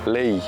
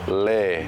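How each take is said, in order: First: The vowel glides into an 'ee' at the end. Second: The vowel stays plain with no 'ee' glide. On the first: The speaker calls it right. "the way you want to pronounce that word is lei" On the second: The speaker calls it wrong. "How is it often mispronounced? ... Often it's le"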